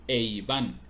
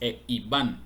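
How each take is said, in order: First: The two vowels are joined into one syllable. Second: The two vowels are said as separate syllables. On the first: The speaker calls it right. "se juntan en un solo sonido" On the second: The speaker calls it wrong. "No es e Iván"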